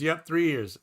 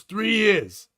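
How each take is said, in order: First: Wife's agreement. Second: Lightly voiced husband, pitched up, drawn out; husband's answer. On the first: Acted. Wife confirming her husband's answer to the comedian, lightly acted quieter reply. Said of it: "And she goes". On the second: Husband answering the comedian on how long they've been married, lightly acted higher reply. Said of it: "And he goes".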